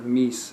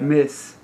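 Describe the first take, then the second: First: The name sounds like the word 'meese'. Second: The name sounds like the word 'miss'. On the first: The speaker calls it wrong. "instead of Meese" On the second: The speaker calls it right. "Miss instead of Meese"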